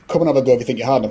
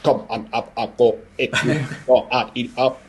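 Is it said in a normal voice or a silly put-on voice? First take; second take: normal; put-on. First: It is said in his normal voice. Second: It is said in a silly Mumbo voice.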